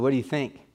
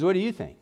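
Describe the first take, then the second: First: Said in the usual way. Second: Higher pitch on "you", as in asking the other person instead; question turned back. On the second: Retold or imitated. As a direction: stress on "you", pitched up then falling. Doctor turns the question back.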